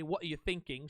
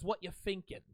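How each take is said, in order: First: Thinking starts with a th sound, fully pronounced. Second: Thinking starts with an f sound, are dropped. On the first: This is standard, proper English. "She doesn't say" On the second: This is a casual street dialect. "Like with an F"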